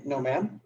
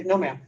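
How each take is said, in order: First: Softer, unsure no ma'am with a rising tune; "No, ma'am" trailing up like a question; awkward no. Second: "No, ma'am" falling, calm and final; firm no. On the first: Coach shows the weak reply to a seller, unsure. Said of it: "it's kinda awkward". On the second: Coach shows the seller a steady, final refusal. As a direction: say "No, ma'am" flat and firm, then hold silence. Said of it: "and I look at her". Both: Shown as a demonstration.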